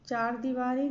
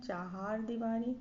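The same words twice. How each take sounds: First: चार दीवारी with one-syllable CHAR; wrong short form. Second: चाहार दीवारी with two-syllable CHAHAR; correct long form. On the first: (चार दीवारी, "चार" एक अक्षर में) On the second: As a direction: say चाहार दीवारी as "cha-haar diwari". (चाहार दीवारी में "हा" जोड़कर) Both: Shown as a demonstration. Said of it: "गलत है".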